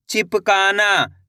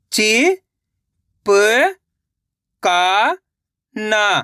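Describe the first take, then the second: First: Said in the usual way. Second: "चिपकाना" very slowly, syllable by syllable; sounding out slowly. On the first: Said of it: "तो मिलके बन जाएगा". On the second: Shown as a demonstration. Teacher showing children how to sound out a word. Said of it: "एक एक अक्षर का उच्चारण करके".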